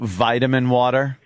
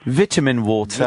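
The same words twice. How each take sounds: First: It is said in an American accent. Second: It is said in a non-American accent.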